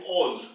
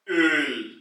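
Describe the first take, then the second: First: The vowel is a plain back o. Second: The vowel is a rounded front ö. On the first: The speaker calls it wrong. "once you remove the umlaut, ... doesn't make any sense" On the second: The speaker calls it right. "we say it as Öl"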